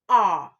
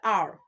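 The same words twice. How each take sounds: First: It is a long vowel with no R sound. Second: The R sound is pronounced after the vowel. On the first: The speaker calls it right. "Instead, you say R" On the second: The speaker calls it wrong. "Nigerians will say letter R"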